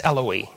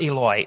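First: Eloi said as "EL-oh-ee"; corrected Eloi. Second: Eloi said as "EE-loy"; mispronounced Eloi. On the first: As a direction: say Eloi in three syllables, short "el", then "oh-ee". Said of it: "it's Eloi". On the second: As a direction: say Eloi in two syllables, "ee" then "loy". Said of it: "It's not Eloi". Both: Shown as a demonstration.

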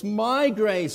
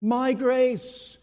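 First: "My" punched, "grace" falls; stress on My. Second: "My" hit first, loud; stress on My. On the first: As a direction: push the word "My" hard. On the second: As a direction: punch "My" in "My grace". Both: Shown as a demonstration. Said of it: "second word that warrants some focus".

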